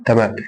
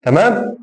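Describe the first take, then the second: First: تمام low with a falling end; short falling statement on تمام; confirming answer. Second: تمام rising high at the end; high rising question on تمام; checking question. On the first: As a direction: answer تمام, pitch dropping to close it. Answers his own check. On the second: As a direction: ask تمام as a check, pitch lifting sharply. Asks, then answers himself. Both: Shown as a demonstration.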